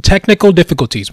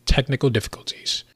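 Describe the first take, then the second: First: "technical difficulties" blurted loud, fast and higher. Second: "Technical difficulties" said softer and flatly; quiet deadpan. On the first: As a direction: bark out "technical difficulties" quickly. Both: Shown as a demonstration.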